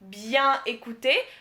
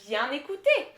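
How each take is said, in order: First: The n is kept apart from écouter. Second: The n links straight into écouter. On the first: The speaker calls it wrong. "Anglophones would say" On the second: The speaker calls it right. "but it's actually"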